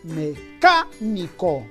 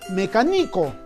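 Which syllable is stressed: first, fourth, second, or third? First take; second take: second; third. First: The stress is on the second syllable. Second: The stress is on the third syllable. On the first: The speaker calls it right. "la mayor fuerza de voz está en la antepenúltima sílaba, es decir, en la K" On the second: The speaker calls it wrong. "o quizás sea graveoliana ... algo no suena bien"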